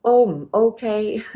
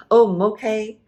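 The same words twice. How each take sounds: First: Louder and higher, stretched slowly; slow, drawn out. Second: Said in the usual way. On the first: Shown as a demonstration. Teacher models a waiter's reply, slow drawn out. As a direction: draw out "Oh, mm, okay." slowly and loud. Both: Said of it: "high tone".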